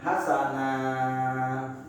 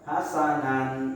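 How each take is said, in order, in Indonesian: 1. Kata ini diakhiri dengan vokal a yang dipanjangkan. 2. Kata ini diakhiri dengan bunyi n. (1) "kita bacanya a tapi dipanjangin dua harokat" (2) "Enggak boleh hasanan"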